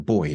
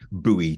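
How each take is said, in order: First: It is said the British way. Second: It is said the North American way. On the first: "change buoy to boy" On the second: "the Canadian way of saying"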